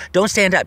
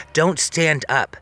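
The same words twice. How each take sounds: First: Raised, higher urgent warning; a firmer, more insistent don't stand up. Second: Slow, careful warning; each word drawn out gently. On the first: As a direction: press it on him, louder now. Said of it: "So I said". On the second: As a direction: spell it out slowly so he stays put. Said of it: "I said to him". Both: Retold or imitated.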